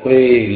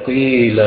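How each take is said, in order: No difference in how they are said.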